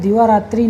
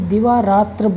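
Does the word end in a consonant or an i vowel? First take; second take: i vowel; consonant. First: The word ends with a short i vowel. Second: The word ends on the consonant sound r. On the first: The speaker calls it wrong. "दिवारात्रि नहीं" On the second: The speaker calls it right. "दिवारात्र बोला जाता है"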